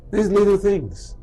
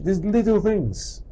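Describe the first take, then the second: First: Little hit once more, a touch quicker; emphatic repeat of these little things; stress on little again. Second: Little drawn out, slow and weighty; slow emphatic these little things; stress on little. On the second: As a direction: lean on the word little, slowly. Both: Shown as a demonstration. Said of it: "repeated for emphasis".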